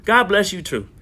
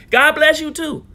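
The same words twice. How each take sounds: First: Said in the usual way. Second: High, loud God bless you too; loud defiant blessing. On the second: Real, not acted. Answers a hostile commenter.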